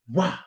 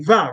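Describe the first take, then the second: First: It starts with a rounded w sound. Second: It starts with a buzzing v sound. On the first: This is how the letter was read in old English. "in ancient English, V wasn't va, it was wa, like a U" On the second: This is how the letter is read today. "you look at a V and you say va"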